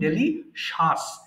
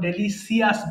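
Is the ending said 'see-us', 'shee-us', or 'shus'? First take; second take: shus; see-us. First: The ending is said 'shus'. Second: The ending is said 'see-us'. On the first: The speaker calls it right. "এটা সঠিক হচ্ছে ডেলিশাস" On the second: The speaker calls it wrong. "অথবা ডেলিসিয়াস বলি"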